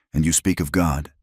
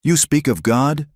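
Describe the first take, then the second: First: Said in the usual way. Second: A high, rising shout of disbelief; a woman shouting at the man who burned her home. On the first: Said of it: "Her voice was raspy from the smoke, but loud". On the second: Acted. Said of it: "Neha shouted".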